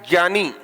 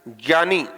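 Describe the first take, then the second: The two takes are said the same way.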